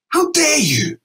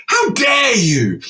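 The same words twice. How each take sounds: First: Indignant. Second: Slow shouted retort. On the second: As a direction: yell it back, each word dragged. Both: Retold or imitated. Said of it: "And I said".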